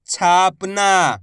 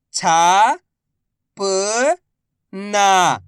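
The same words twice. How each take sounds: First: Said in the usual way. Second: Very slow, each syllable drawn out. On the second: Shown as a demonstration. Teacher sounding out a word for pupils, slow syllables. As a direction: spell the word out slowly for a child. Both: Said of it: "मैं किस तरीके से".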